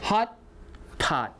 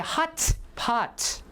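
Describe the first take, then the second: First: It is said quickly with the first t held back. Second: It is said slowly with every sound exaggerated. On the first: "Hot, stop, and then pot" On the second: "careful pronunciation"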